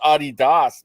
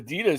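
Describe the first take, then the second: First: It is said with a German pronunciation. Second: It is said with an American pronunciation. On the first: "German brand. It's called Adidas" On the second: "We call Adidas Adidas here in America"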